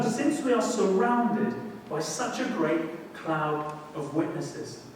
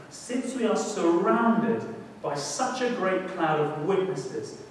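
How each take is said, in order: First: Slow scripture reading again. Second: Slow, deliberate reading of the verse; slow scripture reading. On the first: The preacher rereads the verse to the congregation. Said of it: "verse read again". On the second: The preacher reads the Hebrews verse slowly to the congregation. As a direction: lay each word down with weight. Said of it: "reads verse slowly, then repeats". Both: Shown as a demonstration.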